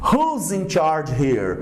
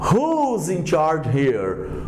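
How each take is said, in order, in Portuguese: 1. Who e is são unidos numa palavra só, contraída. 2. Who e is são unidos numa palavra só, contraída.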